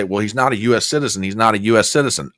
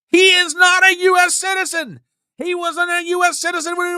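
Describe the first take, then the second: First: Mocking himself. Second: Emphatic shout. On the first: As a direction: lower and fast, parroting himself dismissively. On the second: Real, not acted. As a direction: declare it as a fact you are sick of repeating. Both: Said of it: "you guys are hearing me say".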